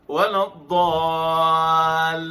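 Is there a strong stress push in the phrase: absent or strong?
absent. It is said without a strong stress push. The speaker calls it right.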